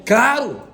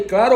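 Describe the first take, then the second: First: A loud, bright "Claro!" that turns heads; said loudly. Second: A louder "Claro" with a rising end; said loudly. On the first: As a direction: call out "Claro!" so the whole coffee break hears. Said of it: "eu falei alto". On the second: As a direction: repeat "Claro" loud so more pastors look. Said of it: "Na hora que eu falei". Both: Retold or imitated.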